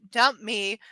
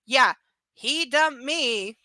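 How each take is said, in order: First: Said in the usual way. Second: Dumped drawn out slowly, stressed and sarcastic; ironic stress. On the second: Real, not acted. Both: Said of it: "quote unquote".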